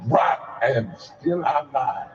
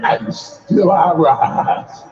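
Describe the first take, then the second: First: Slow poetic refrain. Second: Slow, deliberate poetic line; Maya Angelou delivery. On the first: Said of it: "Say it again". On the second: Preacher modeling the line for the congregation, slow. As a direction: demonstrate the line slowly for them to repeat. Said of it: "Somebody practice it and say". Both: Shown as a demonstration.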